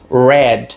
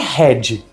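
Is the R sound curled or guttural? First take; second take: curled; guttural. First: The R is curled with the tongue. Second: The R is a guttural throat sound. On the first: The speaker calls it right. "aquele R mais enrolado na língua" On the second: The speaker calls it wrong. "Não é red, como muita gente fala"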